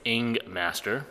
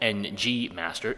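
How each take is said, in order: First: The first part is said as the sound ing. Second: The first part is spelled out as letters. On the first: The speaker calls it right. "It's Ing Master" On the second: The speaker calls it wrong. "the most mispronounced website on the planet since everybody calls it NG Master"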